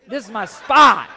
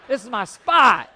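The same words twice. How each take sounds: First: Loud laughing claim on my spot; mock-stubborn yell; defiant shout. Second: Defiant shout again. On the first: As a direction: plant your feet and shout spot. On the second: Retold or imitated. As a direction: echo the claim, still loud. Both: Repeated defiant line.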